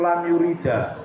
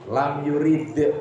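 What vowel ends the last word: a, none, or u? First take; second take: a; none. First: The last word ends with an added a vowel. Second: The last word ends on a bare d sound. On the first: The speaker calls it wrong. "nggak boleh" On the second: The speaker calls it right. "Harus tuh ya"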